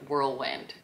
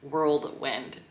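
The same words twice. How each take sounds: First: It is said without an extra D sound. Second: It is said with an extra D sound. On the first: The speaker calls it right. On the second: The speaker calls it wrong.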